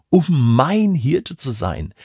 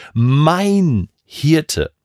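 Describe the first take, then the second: First: Said in the usual way. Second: "Mein" pressed with weight, "Hirte" falling away; stress on mein. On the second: Shown as a demonstration. Preacher stressing "Mein" to say God is his own shepherd. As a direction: lean hard on "Mein", make it personal. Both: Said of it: "bewusst diese Betonung auf dieses Personalpronomen".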